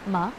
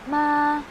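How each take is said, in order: First: The pitch rises like a question. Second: The pitch stays level and flat. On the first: "second tone going up... para siyang medyo pa-question" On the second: "yung voice mo na flat lang din siya"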